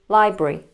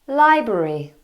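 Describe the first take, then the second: First: A middle syllable is dropped, leaving two syllables. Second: All three syllables are pronounced fully. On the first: "which becomes library" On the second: "We also have the word library"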